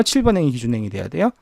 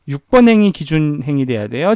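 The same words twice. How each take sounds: First: 칠 hit first, quicker, rising question; stress on 칠. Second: 번 lifted in a rising quiz question; questioning stress. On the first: Teacher quizzing the class, landing hard on 칠 at a brisk pace. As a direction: push 칠 as the right answer, brisk. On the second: Teacher quizzing the class on which row leads, rising on 번. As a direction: ask it as the first option, leaning on 번 with a rise. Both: Shown as a demonstration. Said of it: "무조건 뒤에 게 기준 행이 돼야 된다".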